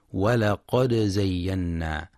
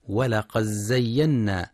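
First: ولقد زينا with the dal sounded and bounced before zay; ولقد زينا: make the dal of ولقد echo, then زينا; clear dal with qalqala. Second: ولقد زينا with the dal merged into the zay, as walaqazzayyanna; wrong merged dal. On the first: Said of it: "لإظهار الدال مع القلقلة". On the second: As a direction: demonstrate the error: fold the dal of ولقد into زينا. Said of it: "فلا يقرأ". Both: Shown as a demonstration.

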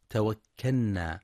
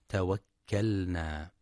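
First: توكلنا with the ل merged into the ن, like توكنّا; wrong merged l. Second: توكلنا with the ل sounded clearly before the ن. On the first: Teacher shows the mistaken merged ل in توكلنا. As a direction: blend the ل of توكلنا into a doubled ن. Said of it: "بإدغام اللام في النون". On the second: Teacher shows the correct clear ل in توكلنا. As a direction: pronounce each letter of توكلنا, the ل clear. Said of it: "والصواب إظهارها". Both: Shown as a demonstration.

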